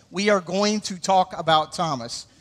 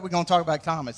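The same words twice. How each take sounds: First: We are going to talk about Thomas, every word spelled out slowly; slow and careful, saying We are going to in full. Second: We're gonna talk about Thomas run together quick, gonna clipped; Southern shortcut, squeezed fast; fast Southern slur. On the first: Pastor spells out the phrase for non-Southerners, slow and careful. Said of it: "if you're not Southern". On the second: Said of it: "how fast we like to say it". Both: Shown as a demonstration.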